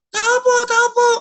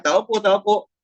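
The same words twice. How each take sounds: First: Much higher, squawky parrot voice; parrot mimicking. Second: Said in the usual way. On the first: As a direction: echo the caller like a talking parrot, pitched way up. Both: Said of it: "Magre-reply naman yung parrot".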